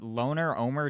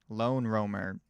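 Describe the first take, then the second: First: The name is split as loner, then Omer. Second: The name is split as lone, then roamer. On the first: The speaker calls it wrong. "doesn't sound right" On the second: The speaker calls it right. "sounds correct"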